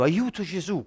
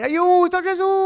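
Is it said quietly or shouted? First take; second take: quietly; shouted. First: It is said quietly and weakly. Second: It is shouted loudly.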